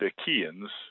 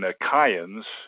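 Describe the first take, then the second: First: The middle vowel is pronounced as an E sound. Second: The middle vowel is not pronounced as an E sound. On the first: "I've just pronounced it as an E sound" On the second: "in the original Greek, it would have been"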